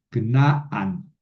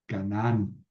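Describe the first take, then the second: First: Canaán said as Kna-an, long final a; Canaán the Hebrew way, knaan; Hebrew pronunciation. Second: Said in the usual way. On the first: Shown as a demonstration. (pronunciación hebrea: Knaán) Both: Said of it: "Perdón, Cana".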